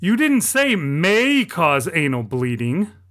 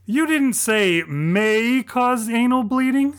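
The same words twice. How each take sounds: First: It ends with a falling, statement tune. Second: It ends with a rising, questioning tune.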